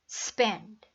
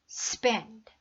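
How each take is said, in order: The two takes are said the same way.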